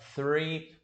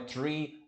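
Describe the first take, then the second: First: The word begins with a soft 'th' sound. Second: The word begins with a plain 't' sound. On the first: The speaker calls it right. "é three" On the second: The speaker calls it wrong. "não é three"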